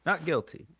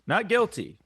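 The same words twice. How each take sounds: First: Said in the usual way. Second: Loud mock protest. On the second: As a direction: shout it out, defensive. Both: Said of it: "denying the accusation".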